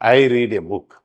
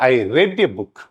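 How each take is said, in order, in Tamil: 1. read என்ற சொல் reed போல ஒலிக்கும். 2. read என்ற சொல் red போல ஒலிக்கும். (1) "அதை ப்ரொனவுன்ஸ் பண்றது வேற மாதிரி இருக்கும்" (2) "ப்ரொனவுன்ஸ் பண்றது மட்டும் ரெட்னு சொல்லணும் பாஸ்ட் டென்ஸுக்கு"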